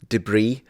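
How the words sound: Debris is pronounced the American way. "the way Americans pronounce that word"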